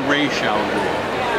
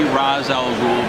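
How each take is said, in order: First: The first word ends with an 'sh' sound. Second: The first word ends with an 's' sound. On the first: It treats the name as written in Arabic. The speaker calls it wrong. "it would be" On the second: It follows how the name is spelled in English. The speaker calls it right. "since it's spelled R A apostrophe S, it's got to be"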